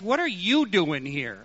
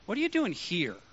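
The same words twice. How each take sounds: First: The stress falls on the word you. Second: The stress falls on the word here. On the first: This person of all people should not be here. "he might have stressed, ... You of all people" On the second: The place is unexpected for this person. "I wouldn't expect to find you here"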